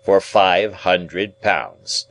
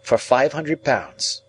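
First: Very slow, weighty restatement; deliberate lawyer repetition. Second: Much higher and slow; name the sum in a high young man's voice; impressed young ward. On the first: Guardian repeats the sum to his ward, very slow and firm. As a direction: spell out the sum word by word. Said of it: "repeated Mister Jaggers". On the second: Ward tells guardian the sum, high and slow. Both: A narrator's reading.

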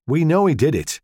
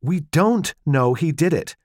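First: "know" pressed hard and loud; "We know he did it" with "know" hit and falling; stress on know. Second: Slow, pressed, stress on "don't"; "don't" hit hard and drawn out, falling; irritable. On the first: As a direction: lean on "know" like it settles it. Husband arguing over a trial. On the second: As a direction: cut him off, annoyed. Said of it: "she said irritably". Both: Acted.

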